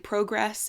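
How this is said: It is said with a British or Canadian vowel. This is the pronunciation the speaker adopted on purpose. "pronouncing things in the British or Canadian way"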